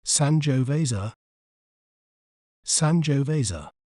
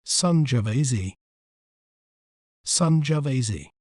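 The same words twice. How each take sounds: First: Sangiovese said the American way, SAN-joh-VAY-zuh; American "Sangiovese", full "oh", ending in -zuh; American pronunciation. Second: Sangiovese said the British way, SUN-juh-VAY-zee; British "Sangiovese", reduced second vowel, ending in -zee; British pronunciation. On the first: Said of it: "in American accent". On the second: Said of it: "In British accent". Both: Shown as a demonstration.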